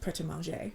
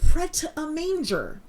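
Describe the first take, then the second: First: The name is said with French-style pronunciation. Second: The name is said with plain American pronunciation. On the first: "I know that it is pronounced Pret a Manger"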